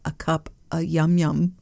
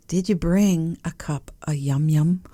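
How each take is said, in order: First: Yum yum lilted up at the end; sing-song yum yum. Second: Playful rising sing-song on yum yum. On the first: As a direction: sing it cute, rising on yum yum. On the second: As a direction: lilt up on yum yum like a treat. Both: Shown as a demonstration. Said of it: "You gotta say it like that".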